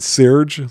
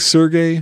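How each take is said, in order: First: The name is said with one syllable. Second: The name is said with two syllables. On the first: "not Serge, like a lot of people do" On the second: "I say Sergey for Chrono Cross"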